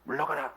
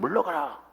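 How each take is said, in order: First: The command is said hesitantly, without confidence. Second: The command is said with firm confidence.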